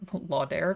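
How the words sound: The name is pronounced the French way. "if you want to be French about it"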